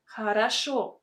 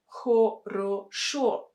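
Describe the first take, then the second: First: The unstressed vowels are pronounced as A. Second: The unstressed vowels are pronounced as a full O. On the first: The speaker calls it right. "We say хорошо" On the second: The speaker calls it wrong. "We don't say хорошо. No, it will sound really unnatural"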